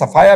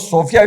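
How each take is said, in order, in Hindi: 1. नाम को sa-FAA-ya ऐसे बोला जाता है। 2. नाम को so-FEE-ya ऐसे बोला जाता है। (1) "सफाया भी प्रोनाउंस करते हैं" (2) "इसको सोफिया भी प्रोनाउंस करते हैं"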